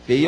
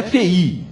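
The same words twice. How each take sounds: First: "fei" in one syllable; "fei" as a single glide; single-syllable diphthong. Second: "fei" mispronounced as fe-Í; "fei" with the i separated from the e; split vowels. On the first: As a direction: say "fei" with i joined to e. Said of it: "uma pronúncia só". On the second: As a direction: say "fei" in two syllables, stressed on i. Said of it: "não é fei". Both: Shown as a demonstration.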